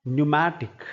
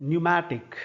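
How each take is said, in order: The two takes are said the same way.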